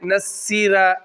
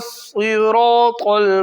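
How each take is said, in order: First: The first consonant is a light, plain s. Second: The first consonant is a heavy, emphatic s. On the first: The speaker calls it wrong. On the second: The speaker calls it right.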